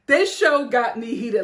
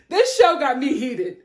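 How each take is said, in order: First: Laughing, heated again. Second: Laughing, heated. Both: Real, not acted. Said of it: "repeated line".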